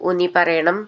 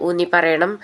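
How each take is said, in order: No difference in how they are said.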